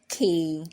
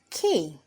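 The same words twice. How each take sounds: First: The word is said without stress. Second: The word is said with stress.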